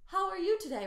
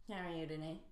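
First: Much higher and louder, eager; engaged bright greeting; excited. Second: Said in the usual way. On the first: Shown as a demonstration. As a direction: sound thrilled to see someone. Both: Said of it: "rather than".

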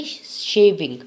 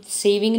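First: शेविंग with a strong sh at the start; शेविंग said loudly as SHAY-ving; correct pronunciation. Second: सेविंग with a plain s at the start; सेविंग begun with s, not sh; wrong pronunciation. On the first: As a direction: hit the sh of शेविंग, louder. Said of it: "इसको हम सेविंग नहीं बोलेंगे". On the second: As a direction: say सेविंग as "SAY-ving", no sh. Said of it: "सेविंग नहीं बोलेंगे". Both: Shown as a demonstration.

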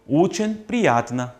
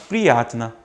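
First: 오첸 stretched long, the stressed vowel held; lengthened stress. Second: Said in the usual way. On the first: Shown as a demonstration. Teacher shows students to lengthen the stressed syllable. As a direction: drag out the 오 in 오첸 slowly. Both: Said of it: "강세 있는 건 좀 길게".

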